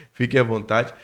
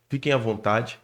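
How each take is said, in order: Both takes have the same delivery.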